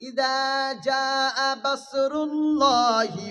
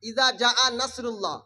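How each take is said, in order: First: The last word begins with a b sound. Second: The last word begins with an n sound. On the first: The speaker calls it wrong. "যদি কোনো ইমাম সাহেব নামাজ পড়াতে পড়াতে পারে" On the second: The speaker calls it right. "নুনের নক্তা উপরে"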